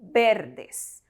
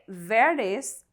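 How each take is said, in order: First: The word begins with a b sound. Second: The word begins with a v sound. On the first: The speaker calls it right. "So we say verdes" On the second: The speaker calls it wrong. "do not say verdes as V is pronounced as B in Spanish"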